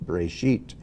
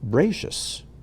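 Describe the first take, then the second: First: It is said with a Sephardic Hebrew pronunciation. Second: It is said with an Ashkenazic Hebrew pronunciation.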